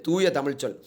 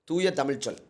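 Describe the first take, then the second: No difference in how they are said.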